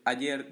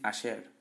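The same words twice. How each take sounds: First: The y sounds like a y sound. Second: The y sounds like a sh sound. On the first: "en vez de decir"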